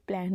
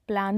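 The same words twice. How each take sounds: First: प्लान with a short "ae", as "plaen"; correct English vowel. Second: प्लान with a long open "aa", as "plaan"; wrong vowel. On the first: Teacher giving learners the English word, प्लान said as "plaen". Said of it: "इसको प्लान बोलते हैं". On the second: Teacher showing learners what to avoid, प्लान said as "plaan". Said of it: "नहीं बोलते". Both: Shown as a demonstration.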